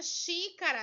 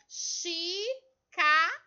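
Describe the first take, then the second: First: Said in the usual way. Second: XÍCARA very slowly, one syllable at a time with pauses; split into syllables. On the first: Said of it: "colocar ela em pedacinhos". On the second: Shown as a demonstration. Teacher showing pupils the three syllables, Xícara said syllable by syllable. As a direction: break Xícara into xí, ca, ra, loud and drawn out. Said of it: "em sílabas".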